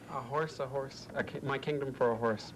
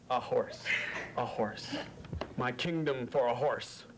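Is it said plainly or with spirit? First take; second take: plainly; with spirit. First: It is said plainly, without much energy. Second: It is said with more spirit and energy.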